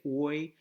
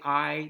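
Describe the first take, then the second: First: The vowel sounds like 'oy'. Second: The vowel sounds like 'eye'. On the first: "they would say oi" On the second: "we say I"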